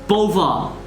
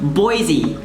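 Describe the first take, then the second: First: It is said with a French pronunciation. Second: It is said with the English pronunciation. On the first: How the original French word sounds. "or in French, it's" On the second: How locals really say it. "it's actually just pronounced"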